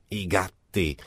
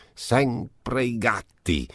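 First: A lightly voiced sour old marchesa. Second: Sempre i gatti slowed right down, stress on sempre falling; drawn-out stress. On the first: Marchesa complains to Marcovaldo, lightly voiced sour. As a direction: grumble it as the old woman behind the shutter. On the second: Marchesa repeats her complaint, slow with sempre stressed. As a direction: lean long and slow on sempre. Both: A narrator's reading. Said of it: "con una voce acuta e un po' nasale".

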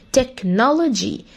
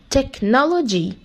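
Both takes have the same delivery.

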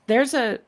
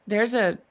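The two takes are said the same way.

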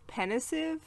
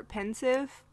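First: "pensive" stretched to three syllables, PEN-ih-siv; mistaken pronunciation. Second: "pensive" in two syllables, PEN-siv; mistaken pronunciation. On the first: Host admitting a lifelong misreading, "pensive" mispronounced as PEN-ih-siv. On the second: Host offering a second misreading of the surname, "pensive" as PEN-siv. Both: Shown as a demonstration. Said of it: "I thought it was pensive or pensive".

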